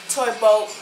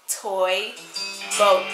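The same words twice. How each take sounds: First: It is said fast. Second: It is said slowly.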